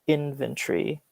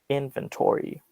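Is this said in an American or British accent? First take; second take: British; American. First: The ending is reduced to 'tree'. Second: The ending keeps a full 'tory' vowel. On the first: "in the British way, you could say" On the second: "in an American way"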